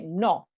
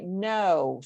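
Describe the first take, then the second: First: It is said strongly and abruptly. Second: It is said softly and gently.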